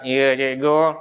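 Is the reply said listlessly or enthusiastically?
listlessly. It is said listlessly, without energy.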